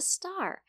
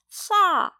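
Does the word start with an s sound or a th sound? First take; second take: s; th. First: It starts with a clear s sound. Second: It starts with a th sound, tongue out. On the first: The adult form of the word. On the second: A toddler's attempt at the word.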